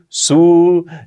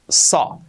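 First: The word is pronounced like 'show'. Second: The word is pronounced with the vowel of 'saw'. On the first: The speaker calls it wrong. "Un error típico, este verbo, pronunciarlo como show" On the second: The speaker calls it right. "no. Saw"

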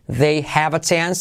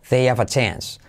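First: The H in 'have' is pronounced. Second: The H in 'have' is dropped. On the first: "se convierte" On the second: "salto la H"

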